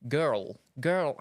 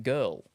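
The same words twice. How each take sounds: First: Put-on "girl" in two syllables with a trilled r; Scottish trilled girl. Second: Said in the usual way. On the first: Shown as a demonstration. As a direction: attempt a Scottish "gir-rl", rolling the r. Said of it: "like a trill type of thing". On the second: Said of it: "they make them two syllables".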